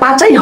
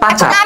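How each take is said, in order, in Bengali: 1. শব্দটি 'ee' ধ্বনি দিয়ে শেষ হয়। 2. শব্দটি 'r' ধ্বনি দিয়ে শেষ হয়। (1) "ওইটা পাচাই হবে না আপু" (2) "ওইটা পাচার হবে"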